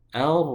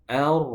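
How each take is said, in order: First: The r is trilled lightly with few repetitions. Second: The r is trilled lightly with few repetitions.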